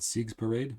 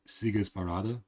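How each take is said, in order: First: The name is said with English-style pronunciation. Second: The name is said with German pronunciation.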